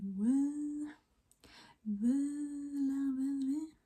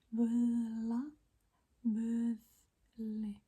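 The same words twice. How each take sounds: First: Put-on slurred like you're really drunk. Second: Said in the usual way. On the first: Shown as a demonstration. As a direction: slur the word völa. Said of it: "just act like you're really drunk". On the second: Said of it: "It's like vöth".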